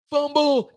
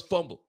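First: High, loud shout of Fumble; full sideline yell; yelled call. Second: Said in the usual way. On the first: Retold or imitated. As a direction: scream it to warn the whole sideline. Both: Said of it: "Everyone yells".

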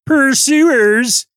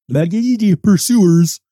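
First: Pursuers in a high, louder frog puppet voice; pinched high puppet voice; high Kermit-style pursuers. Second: Said in the usual way. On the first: Retold or imitated. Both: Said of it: "Kermit the Frog here".

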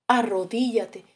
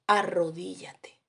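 First: Said in the usual way. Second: "Arrodíllate" said softly and slowly, much quieter; soft command. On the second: Shown as a demonstration. Preacher softly telling the excuse-maker "Arrodíllate", slow and quiet.

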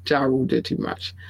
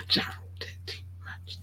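First: Said in the usual way. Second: Whispered aside. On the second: Shown as a demonstration. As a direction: whisper it like a secret.

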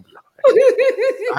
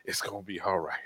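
First: Very high, loud squeaky reassurance through a laugh; hammed-up virtual back pat in a squeaky voice; mock comforting squeak. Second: Said in the usual way. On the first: Shown as a demonstration. Co-host jokingly comforting the crying host, squeaky and laughing. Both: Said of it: "I could do a virtual back pat".

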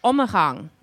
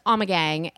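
First: "Ommegang" said OH-muh-hahng; Belgian pronunciation. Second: "Ommegang" said AH-muh-gang; hard g in "Ommegang", rhyming the end with "bang"; American pronunciation. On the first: Co-host shows the traditional Flemish way, "Ommegang" as OH-muh-hahng. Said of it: "because I pronounce". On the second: Co-host shows how Americans say it, "Ommegang" as AH-muh-gang. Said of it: "they pronounce it here in the United States". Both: Shown as a demonstration.

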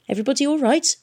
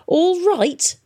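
First: Said in the usual way. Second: High loud indignant yell of "All right?"; shouted. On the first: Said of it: "it asked". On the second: A narrator's reading. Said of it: "shouted Tom".

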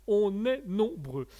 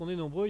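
First: On est nombreux slowed right down, nombreux drawn out, est pushed a bit louder; emphatic repeat. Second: Said in the usual way. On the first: Real, not acted. Host to chat, joking about voices in his head, slow and emphatic. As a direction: lean into each word slowly, landing on nombreux.

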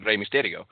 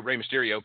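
First: Name in a Mexican accent; Mexican pronunciation. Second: Said in the usual way. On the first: Shown as a demonstration. Texan explaining what he hears locally, in a Mexican accent. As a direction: say the name as Mexican speakers would, tapped R. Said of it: "names like that pronounced in that fashion". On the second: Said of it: "very rarely do you hear".

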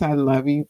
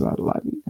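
First: Said in the usual way. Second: Soft whisper. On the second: Acted. Whispered love to fans.

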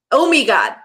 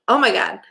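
First: Oh me God with me instead of my, a bit louder; mock Kirsten Oh me God. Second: Said in the usual way. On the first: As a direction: twist my into me, Oh me God. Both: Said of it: "I'm gonna do it forever now".

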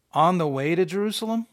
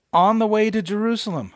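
First: Mildly disbelieving echo of a title; incredulous question. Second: Louder, higher heading read-out; mock announcement. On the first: Preacher doubting the subheading's significance, mildly incredulous. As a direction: question the heading as if unimpressed. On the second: Preacher reading out the app's subheading, in mock announcement. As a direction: announce it like a grand title. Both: Shown as a demonstration.

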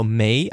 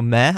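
First: Said in the usual way. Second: MEH with an open "eh" vowel; "meh" instead of "me"; clipped northern ending. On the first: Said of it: "I go me". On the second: Shown as a demonstration. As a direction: say "meh", rhyming with "yeah". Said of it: "I don't go meh".

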